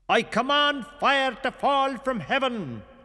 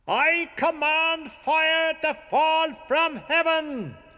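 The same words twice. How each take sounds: First: It is called out loudly. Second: It is called out much louder.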